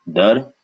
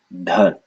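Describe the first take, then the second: First: Dar with short vowel and airless d; no puff on the d of Dar; unaspirated d. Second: Dhar with short vowel and a puff of air; aspirated dh. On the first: Teacher giving the word for rate, unaspirated d in Dar. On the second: Teacher contrasting with rate, aspirated dh in Dhar. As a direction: breathe out on the dh of Dhar. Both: Shown as a demonstration. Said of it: "the power of aspiration".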